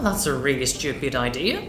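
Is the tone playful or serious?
playful. It is said in a playful, lively tone. "발랄한 악센트"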